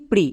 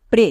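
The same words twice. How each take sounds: First: প্রি with an "ee" vowel, pree; alternative reading প্রি. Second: প্রে with an "e" vowel, pray; correct reading প্রে. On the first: Teacher testing students with the other reading, প্রি with "ee". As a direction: say প্রি, rhyming with "see". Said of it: "কোনটা". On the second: Teacher asking how PRE sounds, giving প্রে with an "e". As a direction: say প্রে, rhyming with "day". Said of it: "এর জন্য কি হবে?". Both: Shown as a demonstration.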